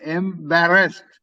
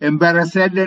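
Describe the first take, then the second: First: The ending is said as a short 'st' sound. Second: The ending is said as an extra 'sad' syllable. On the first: The speaker calls it right. "உச்சரிப்பு எம்பாரஸ்ட்" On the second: The speaker calls it wrong. "எம்பாரசட் என்று சொல்ற இல்லை"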